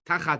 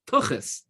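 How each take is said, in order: First: It ends with an 'at' sound. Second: It ends with an 'as' sound. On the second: "if you Hebraicize it or Yiddishize it"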